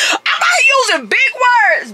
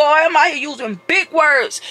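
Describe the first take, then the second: First: Proud shout. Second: Said in the usual way. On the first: Real, not acted.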